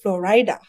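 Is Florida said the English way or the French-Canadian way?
French-Canadian. Florida is said with a French-Canadian pronunciation. The speaker calls it wrong. "A lot of French Canadians, they pronounce Florida, Florida"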